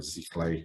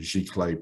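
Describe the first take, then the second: First: The word begins with a Z sound. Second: The word begins with a G sound.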